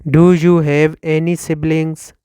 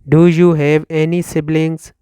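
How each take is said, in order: Both takes have the same delivery.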